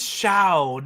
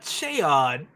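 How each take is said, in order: First: The word ends without a final d sound. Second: The word ends with a final d sound. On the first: This is how the audiobook narrator says it. The speaker calls it wrong. "he says Shao" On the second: This is the familiar way of saying it. The speaker calls it right. "not Shaod"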